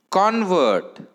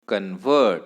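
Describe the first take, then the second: First: "convert" with loud high CON, falling after; stress on first syllable. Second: "convert" with weak low first syllable, strong VERT; stress on second syllable. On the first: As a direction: hit CON hard in "convert". ("Convert" च्या पहिल्या अक्षरावर जोर) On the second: ("convert" च्या दुसऱ्या अक्षरावर जोर) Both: Shown as a demonstration. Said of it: "hear the difference between".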